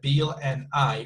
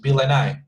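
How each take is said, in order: First: Each word is said separately and flatly. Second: The words run together into one chunk. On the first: The speaker calls it wrong. "we don't read word by word ... super flat" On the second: The speaker calls it right. "she could connect the words"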